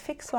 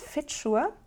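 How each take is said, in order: First: The middle consonant sounds like 'ks'. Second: The middle consonant sounds like 'tch'. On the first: The speaker calls it wrong. "wie man es, wenn man es lesen würde, Fixur heißt, dass der nicht Fixur heißt" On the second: The speaker calls it right. "sondern Fitschur"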